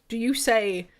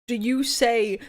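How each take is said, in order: No difference in how they are said.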